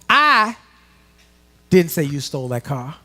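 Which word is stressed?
I. The word 'I' is stressed.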